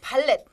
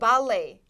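First: The word ends with a t sound. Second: The word ends without a t sound. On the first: The speaker calls it wrong. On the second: The speaker calls it right.

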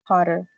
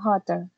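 First: The double t sounds like a quick r. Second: The double t is a clear t sound. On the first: The speaker calls it right. "La doble T se pronuncia como R" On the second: The speaker calls it wrong. "Hay algunas personas que lo dicen hotter"

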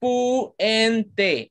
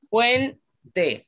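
First: The word is split into three syllables. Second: The word is said in two syllables. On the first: The speaker calls it wrong. "no podemos decir, profesor, puente, hay tres sílabas" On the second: The speaker calls it right. "solo tiene dos sílabas"

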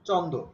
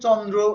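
First: The word is said without the r sound. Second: The word is said with the r sound. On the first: This is the form used by common people. "এই রফলাটা তারা উচ্চারণ করতে পারতো না" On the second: This is the learned classical form. "সাধারণ লোক তখন চন্দ্র এত সুন্দর করে বলতে পারতো না"

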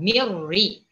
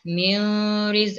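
First: The n merges into r without nasal hum. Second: The n sound is kept before the r. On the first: The speaker calls it right. "Kita ni masukkan, jangan didengungkan" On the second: The speaker calls it wrong. "jangan dibaca miriz, itu salah"

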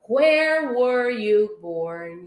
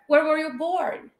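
First: It is said at a normal, careful pace. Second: It is said quickly, with words run together.

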